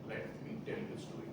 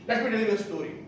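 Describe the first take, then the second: First: The phrase is spoken at a slow pace. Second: The phrase is spoken at a fast pace. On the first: The speaker calls it right. "When you slow down on the pace, automatically connects the audience" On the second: The speaker calls it wrong. "You cannot say"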